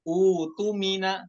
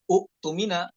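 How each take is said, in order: First: The word starts with a long u vowel. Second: The word starts with a glottal stop after u. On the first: The speaker calls it right. "yang hamzah itu di dijadikan eh, mad ya" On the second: The speaker calls it wrong. "di hamzah wasolnya dijadikan hamzah kotok, u tumina, maka bacanya salah"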